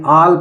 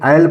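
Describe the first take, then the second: First: The word starts with a long aa vowel. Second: The word starts with an ae vowel.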